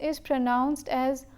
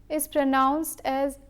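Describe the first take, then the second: Both takes have the same delivery.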